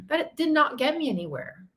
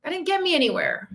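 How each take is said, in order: First: "not" pulled apart and hit hard; firm correction hitting "not"; stress on not. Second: Said in the usual way. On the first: Real, not acted. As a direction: lean on "not" in "did not".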